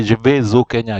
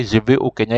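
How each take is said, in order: First: "vais" linked into "au" with a z sound, vez o; teacher shows the wrong way, joining "vais au" with a z; wrong liaison. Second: "vais" said ve, then a clean break before "au"; teacher models "vais au" without the z link; correct, no liaison. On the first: Teacher to students, the forbidden liaison: vez o. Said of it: "You don't say". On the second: Teacher to students, correct form, no liaison: ve o. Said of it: "You have to say". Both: Shown as a demonstration.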